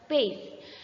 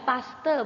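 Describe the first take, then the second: First: The word has the English 'payst' pronunciation. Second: The word is read out letter by letter. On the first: "kalau dibaca dalam bahasa Inggris ini terbaca paste" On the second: "kalau dibacanya ya paste biasanya"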